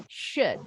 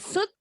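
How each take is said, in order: First: SHOULD starting with a hushing sh, falling. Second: SHOULD starting with a plain s, like "sood". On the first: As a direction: say SHOULD with a clear sh and short central vowel. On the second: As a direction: mispronounce SHOULD with s in place of sh, rising. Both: Shown as a demonstration. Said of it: "Yang penting bunyinya bukan S ya".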